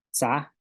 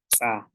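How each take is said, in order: First: Said in the usual way. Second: "sa" said as tsa with an ejective ts; sharp ts pop in "sa", gap before the vowel; glottalised TS. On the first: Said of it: "que no tienen glotal". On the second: Shown as a demonstration. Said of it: "consonantes que tienen glotal".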